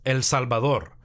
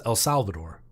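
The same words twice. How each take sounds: First: Native Spanish pronunciation of El Salvador; El Salvador with pure Spanish vowels; Spanish accent. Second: Anglicized El Salvador; El Salvador in an English-speaking accent. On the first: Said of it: "my country, it's El Salvador". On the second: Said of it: "The whole world says". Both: Shown as a demonstration.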